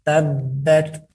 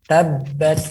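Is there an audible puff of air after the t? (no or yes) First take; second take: yes; yes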